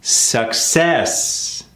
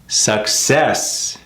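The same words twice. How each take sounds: First: "success" stressed on the SUC; stress on first syllable. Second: "Success" with weight on CESS; stress on second syllable. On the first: Teacher showing the wrong stress on "success". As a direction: say "success" as SUC-cess, first part strong. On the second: Teacher modelling the right stress on "Success". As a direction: say "Success" as suc-CESS, second part strong. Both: Shown as a demonstration.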